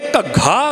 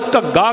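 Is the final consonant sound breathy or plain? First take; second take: breathy; plain. First: The final consonant is a breathy gh sound. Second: The final consonant is a plain g sound. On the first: The speaker calls it right. "वो फिर सही उचारण होएगा" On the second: The speaker calls it wrong. "घग्गा वो गग्गा लग गया ना अखीर ते, ग लग गया"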